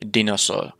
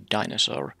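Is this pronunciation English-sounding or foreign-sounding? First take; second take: foreign; English. First: It is said with a foreign, non-English pronunciation. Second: It is said with a standard English pronunciation. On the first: It carries over the speaker's native-language habit. The speaker calls it wrong. "sometimes I accidentally say dinosaur because that's that's comes comes from my native tongue" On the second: It follows the English norm. The speaker calls it right. "the English pronunciation should be dinosaur"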